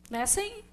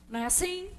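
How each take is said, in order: The two takes are said the same way.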